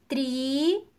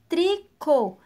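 First: "Tricô" in two drawn-out syllables, long pause between; very slowly. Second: Said in the usual way. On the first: Shown as a demonstration. Teacher asks pupils for attention, word very slowly split in syllables. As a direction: stretch and separate the syllables of "Tricô". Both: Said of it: "bem devagar".

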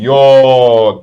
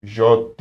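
First: "yot" with a long, loud o; emphatic correction, "yot" drawn out; corrected letter name. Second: "Jot" with a zh sound at the start; wrong letter name. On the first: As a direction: stretch "yot" out loudly with a y sound. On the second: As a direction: say "Jot" as zhot, the mistaken way. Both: Shown as a demonstration. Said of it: "Jot değil".

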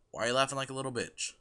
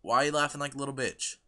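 The two takes are said the same way.

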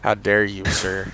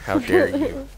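First: Said in the usual way. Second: High, indignant how dare you; mock outrage. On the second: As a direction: play it scandalised and shrill.

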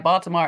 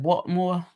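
First: Said in the usual way. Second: Baltimore said as a local, "Bawlmore"; Baltimore accent. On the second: Shown as a demonstration. Chat host showing off the local accent, imitated Baltimore accent. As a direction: say Baltimore with its middle swallowed, Baltimore-accent style. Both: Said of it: "that Baltimore accent too".

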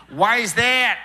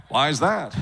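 First: Put-on high, loud Minnesota accent. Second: Put-on laid-back Los Angeles accent. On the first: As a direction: ask in a broad Minnesota accent. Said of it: "where everyone talks like this". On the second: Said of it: "everyone strives to sound like this".

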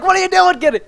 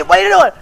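First: High mock-alarmed question; retold alarm. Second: High, urgent call to a teammate; alarmed demand. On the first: Telling Kenny how he reacted a moment ago, retold alarm. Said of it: "I was like". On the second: Real, not acted. Mistaking someone else for Kenny, alarmed demand. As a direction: demand an answer in real alarm.

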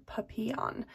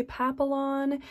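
First: Papillon with a Y sound, pa-pee-yon; French-style papillon. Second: Papillon with an English L, PAP-uh-lon. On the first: Vlogger giving the pronunciation she found, papillon pa-pee-yon. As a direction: say papillon with a y in place of the L's. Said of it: "the Y sound instead of the L's". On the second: Vlogger showing how English speakers say it, papillon with the L. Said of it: "who speak English say". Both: Shown as a demonstration.

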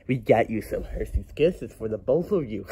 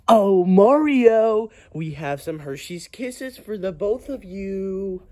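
First: Said in the usual way. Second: Drawn-out singsong offer. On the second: Acted. Offering Mario and his friend Hershey's Kisses, slow high singsong. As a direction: draw it out in a high, coaxing singsong.

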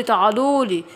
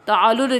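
First: Low, coaxing call to its prey, falling; a low, satisfied beckon; hungry tiger. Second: Low, coaxing call to its prey, rising; hungry tiger. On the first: (نمر جعان بيقول تعالولي بنبرة نازلة) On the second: (نمر جعان بينادي على فريسته بصوت واطي) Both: Acted.

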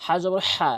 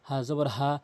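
First: Last "হা" squeezed from mid-throat; pressed h. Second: Last "হা" lower, with unpressed breath; easy h. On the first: Teacher contrasting letters, final "হা" with pressed throat h. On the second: Teacher contrasting letters, final "হা" relaxed and lower. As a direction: let the final "হা" out as a plain h. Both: Shown as a demonstration. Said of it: "হরফের পার্থক্যগুলো".

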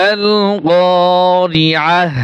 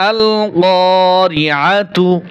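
First: আল-কারিআহ slow, ending on a clear breathy h; pause form with ha. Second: আল-কারিআতু slow, sounding the ending tu; joined form with tu. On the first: Teacher shows the pause form, slow, ending on h. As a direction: stop on আল-কারিআহ, sounding the final h. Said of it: "হা উচ্চারণ হবে". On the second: Teacher shows joined reading, slow, ending in tu. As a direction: read আল-কারিআতু with its full ending. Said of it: "আর যদি মিলিয়ে যাই". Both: Shown as a demonstration.

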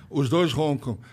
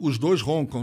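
First: Laughing. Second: Said in the usual way. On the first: Real, not acted. Repeats the confession with a laugh.

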